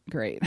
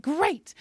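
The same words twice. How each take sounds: First: Low, quiet letdown; deflated. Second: High, softer exclamation; hopeful mock cheer. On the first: Retold or imitated. Patient told of more tumors, low deflated reply. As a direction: drop it low and soft. Retold reaction to losing everything. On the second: Patient going into surgery hopeful, high mock cheer. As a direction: lift it high and light.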